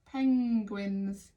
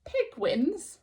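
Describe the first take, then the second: First: Penguins with the full N G sound; corrected penguins. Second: Pigwins said with a G, the wrong way; mistaken pigwins. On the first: Teacher correcting the word to penguins. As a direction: say penguins carefully, every sound. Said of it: "I missed out a sound". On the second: Teacher pointing out the misspelt word as Pigwins. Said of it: "spotted that mistake". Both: Shown as a demonstration.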